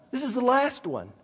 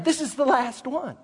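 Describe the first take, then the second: First: "last" leaned on, quieter than before; stress on LAST. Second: "this" pushed up high and leaned on; stress on THIS. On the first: Preacher to congregation, stressing "last" on the repeat. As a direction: lean on the word "last". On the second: Preacher to congregation, "this" stressed first time. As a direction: lean on the word "this". Repeats line, shifting stress. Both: Shown as a demonstration.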